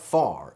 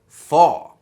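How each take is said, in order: First: The final R sound is pronounced. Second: The final R sound is dropped. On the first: "So it's not car, bar, far" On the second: "The R sound at the end of the word is dropped"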